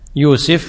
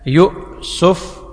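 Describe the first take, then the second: First: A long u vowel runs straight into the s. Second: A glottal stop comes before the s. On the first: "بتثليث السين مع الياء والواو" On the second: "مع الهمزة يؤسف"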